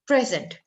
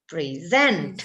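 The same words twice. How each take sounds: First: The stress is on the first syllable. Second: The stress is on the second syllable. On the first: It is used as an adjective or noun. "berarti duluan ditekan" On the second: It is used as a verb.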